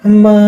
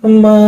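The two takes are said the same way.

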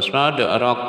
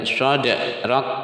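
First: The final k is released with a bounce. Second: The final k ends with a breathy hiss. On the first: The speaker calls it wrong. "jangan mantul sadrak. Nah, bukan bukan seperti itu" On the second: The speaker calls it right. "tapi sadrak, cuma hames udara desis keluar"

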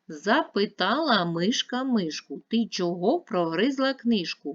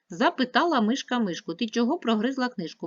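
First: It is read at a slower pace. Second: It is read at a faster pace. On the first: "Давайте навчимося читати швидко" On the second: "Тепер швидше"

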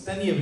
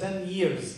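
First: The second word ends without an s sound. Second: The second word ends with an s sound. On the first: The speaker calls it right. "it's 10 years because here it's an adjective" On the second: The speaker calls it wrong. "You said 10 years. No"

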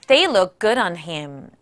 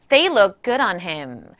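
The two takes are said the same way.

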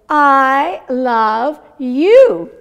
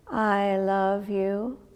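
First: It is said with lively, excited energy. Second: It is said flatly, sounding sad. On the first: The speaker really means it. The speaker calls it right. "How about if I say" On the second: The speaker does not seem to really mean it. The speaker calls it wrong. "it's kind of a sad I love you"

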